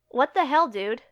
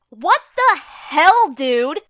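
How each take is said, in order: First: It is said flatly, without emotion. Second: It is said with acted, expressive emotion. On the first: The speaker calls it wrong. "If you said the first, I worry about you" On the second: The speaker calls it right. "If you said the second, it's because of acting"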